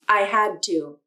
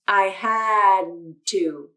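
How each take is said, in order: First: The D is brief, flowing straight into 'to'. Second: The D is held in a pause before 'to'. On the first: "Watch again" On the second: "I'll pause when I say the D sound"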